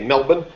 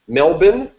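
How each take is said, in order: First: The word's ending is cut short. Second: The word's ending is fully pronounced. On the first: The speaker calls it right. "That was better?" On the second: The speaker calls it wrong. "Did I pronounce it right"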